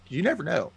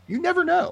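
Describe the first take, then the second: First: Said in the usual way. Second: High loud playful cry; mock ominous shout. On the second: Real, not acted. Repeating her point to friends, playful high shout. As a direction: belt the warning out for fun.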